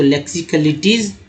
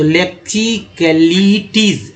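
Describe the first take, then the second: First: Said in the usual way. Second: लेक्सिकलिटीज slowly, long ली and टीज; slow pronunciation. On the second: Shown as a demonstration. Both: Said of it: "ईज यहाँ पढ़ा जा रहा है".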